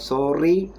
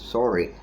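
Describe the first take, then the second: First: The R is made in a non-English way. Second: The R is made the English way. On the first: The speaker calls it wrong. "It is not sorry" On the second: The speaker calls it right. "that is the English sound"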